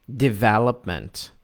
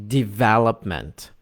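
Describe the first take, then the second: The two takes are said the same way.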